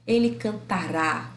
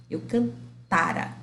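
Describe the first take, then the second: First: "cantará" said slowly, RÁ stressed at the end; stress on final syllable. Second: "cantara" said slowly, TA stressed, final "ra" weak; stress on the middle syllable. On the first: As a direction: land hard on RÁ in "cantará". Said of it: "Tá no rá". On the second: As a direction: hold the TA in "cantara". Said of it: "Tá no tá". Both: Shown as a demonstration.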